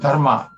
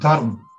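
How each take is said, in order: First: Southern Indian form, ending in -ma. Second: Gujarati form, ending in -rm.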